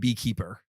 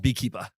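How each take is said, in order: First: The final R sound is clearly pronounced. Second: The final R sound is dropped. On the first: This is how nobody in the film says it. "no one's actually saying beekeeper" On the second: This is how everyone in the film says it. "no one actually pronounces the R"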